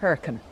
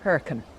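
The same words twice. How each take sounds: First: It is said the way locals say it. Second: It is said the way locals say it.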